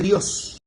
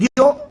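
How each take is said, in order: First: The final S is clearly pronounced. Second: The final S is dropped. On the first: "en vez de" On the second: "se comen todas las heces"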